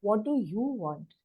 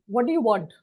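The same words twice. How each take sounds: First: The question is said in a gentle, polite tone. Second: The question is said in a rude, demanding tone. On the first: It creates a different, kinder atmosphere. The speaker calls it right. "it creates a different atmosphere" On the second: The speaker comes across as demanding. The speaker calls it wrong. "It sounds rude"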